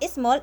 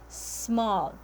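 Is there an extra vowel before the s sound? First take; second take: yes; no. First: An extra vowel syllable comes before the s. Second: The word starts directly with the s sound. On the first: The speaker calls it wrong. "it's not small" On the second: The speaker calls it right. "it is small"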